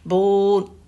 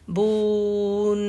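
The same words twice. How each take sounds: First: The final n sound is barely touched. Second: The final n sound is clearly pronounced. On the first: The speaker calls it wrong. "नून को टच करके उसकी sound clear नहीं की और छोड़ दिया" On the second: The speaker calls it right. "बून के बाद नून जो है उसकी साउंड आनी चाहिए, बून ऐसे"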